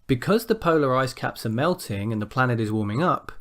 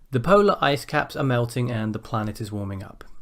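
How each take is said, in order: First: The voice rises at the end. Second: The voice falls at the end.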